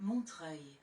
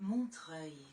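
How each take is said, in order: The two takes are said the same way.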